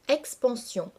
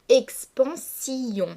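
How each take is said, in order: First: The word is said in three syllables. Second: The word is said in four syllables. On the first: This is the usual pronunciation. "se prononce habituellement en trois syllabes" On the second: The verse needs twelve syllables. "dissocier les deux voyelles de la dernière syllabe"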